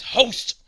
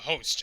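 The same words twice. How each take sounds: First: The final T is said with strong emphasis. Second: The final T is said lightly.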